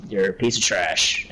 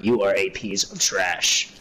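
First: Said in the usual way. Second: Slow and deliberate, every word spelled out; slow, emphatic insult. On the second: Real, not acted. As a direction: drag out YOU ARE for emphasis.

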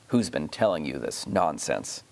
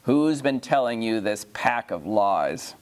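First: Much lower, menacing rumbling king; low thunderous demand, held back; a deep, dark threat from a tyrant uncle. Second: Said in the usual way. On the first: A narrator's reading. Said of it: "said the king in a voice of thunder". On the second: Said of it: "I insist on being answered".

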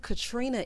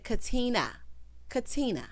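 First: Katrina said with an R after the T; mispronounced Katrina. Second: Katina with no R after the T; corrected Katina. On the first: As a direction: put the unwanted R into Katrina. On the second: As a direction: drop the R cleanly in Katina. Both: Retold or imitated. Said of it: "take the R out".

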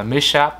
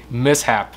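First: "mishap" as mi-shap, with SH; wrong SH sound. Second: "Mishap" split as mis plus hap; correct mis-hap. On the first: Teacher shows the mistake, SH in middle. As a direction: run S and H together in "mishap". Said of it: "Không phải là mishap nhé". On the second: Teacher gives correct word, S and H apart. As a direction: separate S and H in "Mishap". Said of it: "không phải là âm sh ở giữa". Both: Shown as a demonstration.

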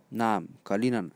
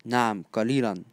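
No difference in how they are said.

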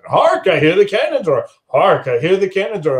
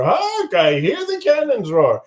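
First: Rehearsing aloud. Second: Hark jumps way up, then the line; stage-actor flourish on Hark; rehearsing the line with a grand Hark; hammed-up Hark. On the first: Acted. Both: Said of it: "He's practicing".

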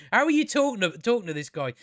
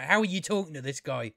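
First: Exasperated repeat. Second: Said in the usual way. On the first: Real, not acted. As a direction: repeat it with incredulous punch on "are".

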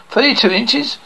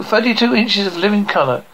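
First: "inches" rising into a question; higher pitch, lifted end on "inches"; questioning echo. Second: Said in the usual way. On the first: Acted. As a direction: echo "Thirty-two inches" higher, as a query. Listener echoes boast as question.

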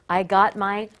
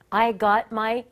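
Both takes have the same delivery.

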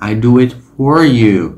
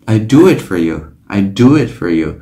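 First: "for" said in full, f plus a clear or; "for" as strong as four. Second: "for" reduced to a weak fer; unstressed "for" flowing into "you". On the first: Teacher showing the full "for": "for" said in full. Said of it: "cách phát âm đầy đủ của nó là for". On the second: Teacher demonstrating the reduced "for": weak fer. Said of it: "không còn là for nữa mà là for". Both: Shown as a demonstration.

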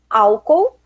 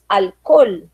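First: Said in the usual way. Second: "alcool" as al-KOL with clear L; Spanish "alcool", stressed on KOL; Spanish pronunciation. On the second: Shown as a demonstration. Teacher contrasting the two words, "alcool" as Spanish al-KOL. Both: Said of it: "nós temos álcool e temos alcool".

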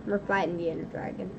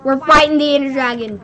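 First: Softer and quick, almost tossed off; quiet quick take. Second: Louder, punching fighting; loud hyped take. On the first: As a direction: say it low and fast like a secret. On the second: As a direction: announce it big to the viewers. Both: Shown as a demonstration. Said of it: "I sound like a what?".

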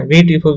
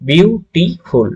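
First: Said in the usual way. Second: beautiful very slow, in three separate beats; higher, drawn-out beautiful with a gap after each syllable; broken into syllables. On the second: Shown as a demonstration. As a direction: break beautiful apart as বিউ, টি, ফুল. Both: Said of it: "ভেঙে ভেঙে উচ্চারণ করা".

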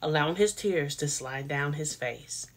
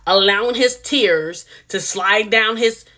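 First: Said much softer and held back; much softer, drawn out. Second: Said in the usual way. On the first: Shown as a demonstration. Vlogger rephrasing for viewers, much softer. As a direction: tone it down, soft and slow. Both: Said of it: "I'm gonna say it like that".

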